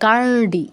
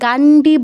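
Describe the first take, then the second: First: The d is a retroflex sound. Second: The d is a plain, non-retroflex sound. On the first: The speaker calls it right. "মূর্ধন্য ড" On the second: The speaker calls it wrong. "গান্ডি বলবো না"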